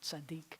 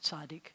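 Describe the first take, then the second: First: The stress is on the last syllable. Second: The stress is on the first syllable. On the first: This is the modern Israeli pronunciation. "instead of"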